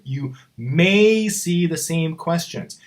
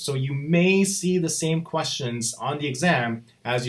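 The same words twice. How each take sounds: First: "may" stretched slow and heavy; you "may" see, spoken deliberately; stress on may. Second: Said in the usual way. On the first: Shown as a demonstration. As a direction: lean hard on "may", slowly. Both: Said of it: "I'm gonna stress this word".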